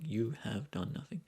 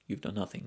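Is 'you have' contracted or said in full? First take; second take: full; contracted. First: You have is said in full, unreduced. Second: You have is contracted and said quickly.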